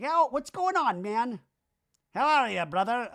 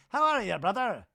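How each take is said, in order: First: Much higher, bro-ish greeting voice; Danny impression. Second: High bro greeting; Danny impression. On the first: Danny greeting his friends, high pumped bro voice. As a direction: play a pumped-up buddy greeting, pitched way up. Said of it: "And Danny's like". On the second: Repeating Danny's greeting to Brock, high bro voice. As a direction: toss off a much higher, pumped bro hello. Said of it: "never fully connected with".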